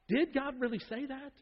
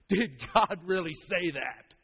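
First: It is asked as a plain, sincere question. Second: It is said in a sneering, mocking tone. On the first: The speaker genuinely wants to know. "The serpent does not say" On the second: The speaker ridicules the statement as absurd. "He's looking down his nose. It's condescending humor"

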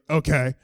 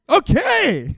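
First: It is said in a curt, annoyed tone. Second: It is said in a cheerful, friendly tone.

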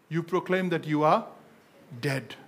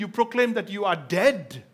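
First: It is said slowly. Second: It is said at normal speed.

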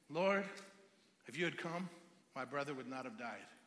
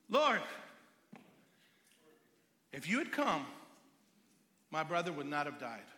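First: It is said in a humble, pleading tone. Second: It is said in an indignant, accusing tone.

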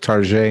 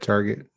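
First: The word is said in a fancy, dressed-up way. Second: The word is said in its plain, ordinary way.

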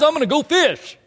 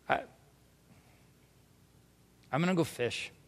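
First: It is said in a cheerful, casual tone. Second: It is said in a heavy, ashamed tone.

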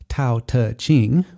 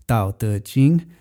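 First: The first consonant has a puff of air. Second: The first consonant has the throat vibrating. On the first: "not Tao Te Ching with the puff of air" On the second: "That is a voiced consonant"

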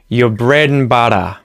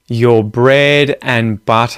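First: The phrase is said at a quick pace. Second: The phrase is said at a slow pace.

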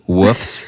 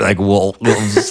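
First: The word is said without an L sound. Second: The word is said with a slight L sound.

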